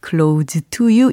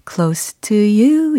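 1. Close는 유성 z 소리로 끝나요. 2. Close는 무성 s 소리로 끝나요. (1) "이렇게 들리지 않고" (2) "이렇게 들리잖아요"

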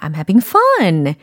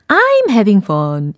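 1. 'fun' 단어에 감정을 실어 강하게 힘을 줍니다. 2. 문장을 'fun'에 힘을 주지 않고 밋밋하게 말합니다. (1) "이 fun 부분을 강조해서 감정을 표현하시면 훨씬 전달이 잘 돼요" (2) "이게 아니라"

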